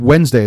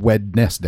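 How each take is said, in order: First: Said in the usual way. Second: Wednesday as written, "WED-NES-day", with the d sounded; spelling pronunciation. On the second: Shown as a demonstration. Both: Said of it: "is also spelled Wednesday".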